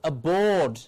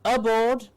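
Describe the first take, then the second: First: The stress is on the second syllable. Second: The stress is on the first syllable. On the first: The speaker calls it right. "it is aboard" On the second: The speaker calls it wrong. "It is not aboard"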